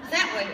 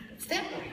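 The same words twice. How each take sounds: First: It's that way, louder, with that punched; loud insistent repeat of the whispered answer; emphatic declaration. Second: Whispered it's that way, high and breathless; hushed whisper. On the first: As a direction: state it's that way flatly and loudly, no doubt. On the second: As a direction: lean in and whisper it's that way like a secret. Pointing out where the past is. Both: Pretend.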